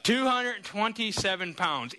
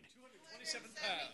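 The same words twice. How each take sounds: First: "Two hundred twenty-seven pounds." spoken slowly, each word weighted; slow emphatic reveal. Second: Whispered reveal. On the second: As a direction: whisper "Two hundred twenty-seven pounds." barely voiced, hushed. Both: Shown as a demonstration.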